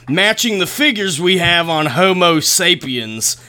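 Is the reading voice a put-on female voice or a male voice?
male voice. It is read in a male voice. The quoted person is a man. The speaker calls it right. "Lauren Coleman's a dude. All right, fine. I'll do it again"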